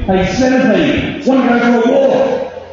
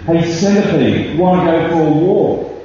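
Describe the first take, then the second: First: It is shouted. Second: It is said a bit louder and tersely.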